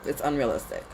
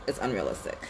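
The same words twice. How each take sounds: First: Said in the usual way. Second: "It's unrealistic" said again, lower and softer; quieter repeat. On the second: Shown as a demonstration. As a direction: let the repeat drop down and soften.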